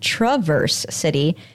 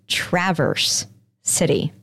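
First: The first vowel is a weak schwa. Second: The first vowel is a short a, as in cat. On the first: The speaker calls it wrong. "the A makes an schwa" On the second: The speaker calls it right. "they say the A like an actual short A, like in cat"

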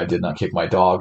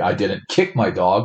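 First: It is said plainly, with no special stress. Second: The word 'kick' carries the strong stress.

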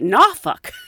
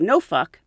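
First: The first syllable sounds like 'nah'. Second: The first syllable sounds like 'no'. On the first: The speaker calls it right. "They say nah fuck" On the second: The speaker calls it wrong. "They don't say no fuck"

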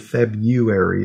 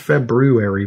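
First: It is pronounced the casual, everyday way. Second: It is pronounced the way it is spelled. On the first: "but people say February" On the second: "it's spelled February"

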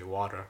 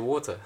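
First: It is said in an American English accent. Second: It is said in a British English accent. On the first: "Like Americans say water" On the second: "They love it when I say water"

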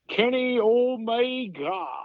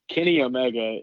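First: The name is said with a Japanese accent. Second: The name is said with a plain English accent.

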